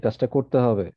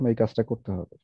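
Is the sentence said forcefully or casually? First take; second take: forcefully; casually. First: It is said in a forceful, emphatic voice. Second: It is said in a casual, unforced voice. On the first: The task must be done right now. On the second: The task can be done a little later.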